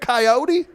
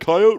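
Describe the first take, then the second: First: The word is said the other way, with flair. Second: The word is said the northern way. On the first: The speaker calls it right. "See how it's got that flair to it?" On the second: The speaker calls it wrong. "Nah, man"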